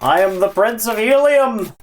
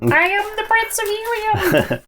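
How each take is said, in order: First: It is said in a normal pitch. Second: It is said in a much higher pitch.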